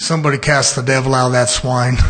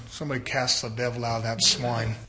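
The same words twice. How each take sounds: First: Loud, low-pitched command; defiant repeat. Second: Said in the usual way. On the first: Acted. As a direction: say it louder, keeping the voice down low. Defiantly repeats after the objection.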